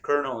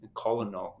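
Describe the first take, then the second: First: It is pronounced the usual, shorter way. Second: It is pronounced letter by letter, as spelled. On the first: The speaker calls it right. "a far easier way to say it" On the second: The speaker calls it wrong. "I used to pronounce it very phonetically"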